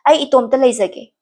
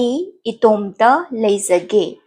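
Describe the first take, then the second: First: It is said at a faster pace. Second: It is said at a slower pace.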